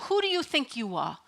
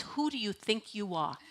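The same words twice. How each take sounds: First: Put-on a light Brooklyn accent on the put-down; family put-down in a mild Brooklyn accent. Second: Said in the usual way. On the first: Imitating how family kept her in her place, Brooklyn accent. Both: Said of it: "In the Brooklyn accent".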